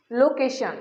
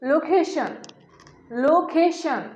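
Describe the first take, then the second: First: লোকেশন said as lokesha; wrong pronunciation. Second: লোকেশন said clearly as lokeshon; correct pronunciation. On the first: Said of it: "এই লোকেশন উচ্চারণটি ভুল". (ভুল উচ্চারণ: লোকেশন) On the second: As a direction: model লোকেশন with a full on ending. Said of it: "এই সঠিক উচ্চারণ হচ্ছে". (সঠিক উচ্চারণ: লোকেশন) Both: Shown as a demonstration.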